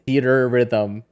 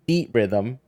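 First: The R sound is pronounced twice, as two words. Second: The R sound is pronounced once, as one word. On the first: The speaker calls it wrong. "you're pronouncing the R twice in Theater Rhythm" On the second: The speaker calls it right. "they've mashed it into one word. So it should be Theat Rhythm"

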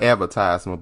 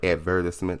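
First: The word is said the American way. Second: The word is said the British way. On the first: The speaker calls it wrong. "Not advertisement" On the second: The speaker calls it right. "but advertisement. I'm trying to bring all my English skills out"

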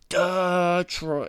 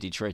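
First: The word is said with careful enunciation. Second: The word is said casually. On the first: This copies a broadcast announcer's delivery. "the announcer's doing it to enunciate" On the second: This is the speaker's everyday way of saying it. "I think I do say Detroit, too"

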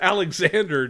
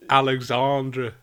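First: The name is said with English pronunciation. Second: The name is said with French pronunciation. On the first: The speaker calls it wrong. "because you said Alexander Dupuis" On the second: The speaker calls it right. "It's a French"

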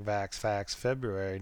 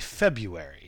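First: The first R in February is clearly pronounced. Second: The first R in February is left out. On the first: "I keep deliberately pronouncing that R" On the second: "And the R is silent"

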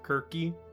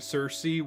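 First: The name begins with a hard K sound. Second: The name begins with a soft S sound. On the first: This is how the ancient Greeks said the name. "the Greeks would have pronounced it Kirky, or you know what I mean, the hard C sound" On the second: This is how one character says the name. "the equivalent of Zal saying Circe"

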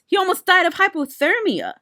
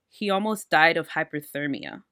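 First: It is read with lively, expressive inflection. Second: It is read in a flat, plain way.

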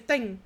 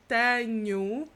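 First: The vowels are reduced, leaving mostly consonants. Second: The vowels are pronounced fully and clearly. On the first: "like we say tenho, which just looks like you're just pronouncing all of the consonants" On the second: "instead of saying tenho"

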